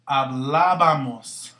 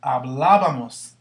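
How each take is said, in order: First: Hablábamos, very slow and careful; teacher's first slow model of Hablábamos. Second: Hablábamos, slow, leaning on the bá; teacher models the stress in Hablábamos; accent on bá. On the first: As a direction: spell out Hablábamos syllable by syllable. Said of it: "put your accent". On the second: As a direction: stretch Hablábamos and hit the bá. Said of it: "put your accent before you even continue". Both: Shown as a demonstration.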